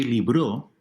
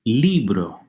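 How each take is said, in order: First: "libro" stressed on the end, liBRÓ; shifted final stress. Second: "Libro" with a strong first LI; stress on second-to-last syllable. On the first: Teacher shows a different meaning, "libro" stressed on final BRO. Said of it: "In fact, if you say libro". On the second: Teacher asks students to hear it, "Libro" stressed on LI. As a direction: hit LI and relax on bro in "Libro". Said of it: "second to last". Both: Shown as a demonstration.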